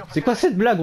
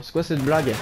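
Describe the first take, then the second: First: Raised, exasperated repeat; indignant disbelief. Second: Said in the usual way. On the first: Real, not acted. Repeats complaint, second louder.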